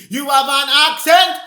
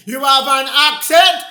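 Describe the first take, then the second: No difference in how they are said.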